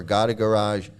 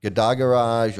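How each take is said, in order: First: "Gada" said GOT-uh, like "got a"; stress on first syllable. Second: "Gada" said guh-DAH, run into "Garage"; stress on second syllable. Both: Shown as a demonstration. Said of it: "however you wanna pronounce it".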